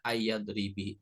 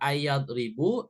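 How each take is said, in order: First: The word ends with an i vowel. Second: The word ends with an u vowel. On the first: "nggak boleh kasroh" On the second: "nggak boleh domah"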